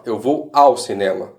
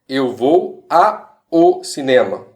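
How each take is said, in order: First: Said in the usual way. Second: Slow, "a o" said as two separate words; wrong split form. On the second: Shown as a demonstration. Teacher showing students the wrong form, slow and split. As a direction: spell out "a o" apart, slowly. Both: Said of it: "Ou melhor".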